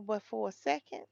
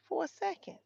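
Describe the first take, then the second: First: Said in the usual way. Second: "for a second" thrown up much higher; emphatic repeat. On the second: Shown as a demonstration. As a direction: hit "for a second" with a sudden high leap.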